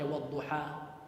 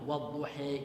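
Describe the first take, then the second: First: The final vowel is an open 'a' sound. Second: The final vowel leans toward an 'e' sound. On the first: "dengan difathahkan" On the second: "dengan diimalahkan, ya dengan dimiringkan"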